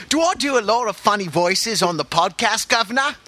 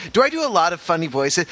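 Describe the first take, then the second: First: Higher-pitched cartoon Cockney; mock Cockney accent. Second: Said in the usual way. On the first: Shown as a demonstration. Host showing off funny voices to listeners, mock Cockney accent. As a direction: put on a hammy Cockney accent. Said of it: "what accents I know".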